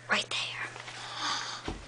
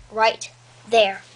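First: Soft breathy repeat; whispering. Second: Said in the usual way. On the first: Real, not acted. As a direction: whisper it close to the mic.

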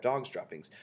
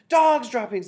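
First: Said in the usual way. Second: Very high, loud mass alarm; shouted. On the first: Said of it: "taken up the dreaded cry of". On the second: A narrator's reading. Whole assembly of witches raising the alarm, shouted. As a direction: shout it high as the dreaded cry. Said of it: "they shouted".

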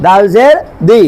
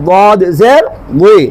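First: Clean, thin "দাল জের দি"; thin Arabic Dal. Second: Slow, heavy, rounded "বদ জের উই"; heavy Arabic Dad. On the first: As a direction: say "দি" as a light d off the teeth. (পাতলা করে "দি") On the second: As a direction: say "উই" as a thick emphatic d gliding into i. (মোটা করে "উই") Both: Shown as a demonstration. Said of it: "পার্থক্য আছে নাই?".

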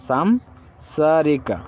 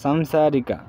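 First: সামসারিকা stretched out very slowly, syllable by syllable; very slow Malayalam demo. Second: Said in the usual way. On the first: Shown as a demonstration. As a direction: draw সামসারিকা out very slowly for learners. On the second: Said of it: "সেরি পিন্নাটে সামসাকিরা".

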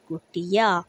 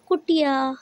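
First: Said in the usual way. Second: Naming the picture. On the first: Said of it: "शब्द हुआ". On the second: Shown as a demonstration. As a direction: call out "कुटिया" up high like a reveal to the class. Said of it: "ये क्या है?".

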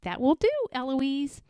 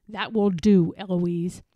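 First: Higher, cheeky echo; mimicking the tutor. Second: Tutor's firm reprimand; louder start, settling onto the name; Philip. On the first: Eloise copying her tutor, higher and cheeky. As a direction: parrot the reprimand lightly. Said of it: "And I say". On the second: Tutor cutting Eloise short, stern and firm. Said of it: "And then he says". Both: A narrator's reading.

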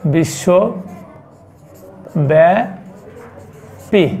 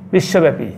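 First: বিশ্বব্যাপী stretched very slowly, each syllable held; slow dictation of বিশ্বব্যাপী to the class; drawn out. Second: Said in the usual way. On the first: Shown as a demonstration. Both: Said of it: "globally হচ্ছে".

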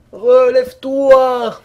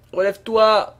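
First: Long, loud, slow call; drawn-out shout. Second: Said in the usual way. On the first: Real, not acted. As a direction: stretch it out, loud. Urging the fallen character up.

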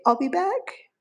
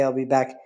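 First: Squeaky high I'll be back to teach the bird; high coaxing demo for the bird; high parrot voice. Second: Said in the usual way. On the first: Shown as a demonstration. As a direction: sound like the parrot saying it. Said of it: "Can you say". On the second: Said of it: "He can say".

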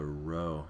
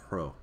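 First: Row starting straight on the R; row, plain unaspirated R; no H before R. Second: Hro with an H breathed before the R; hro, aspirated rather than a plain R; rough breathing on R. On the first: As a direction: say row with no puff of H in front. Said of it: "Instead of just a row". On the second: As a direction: push an H in front of the R in hro. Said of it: "adds an H sound at the beginning". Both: Shown as a demonstration.

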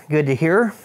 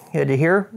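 No difference in how they are said.

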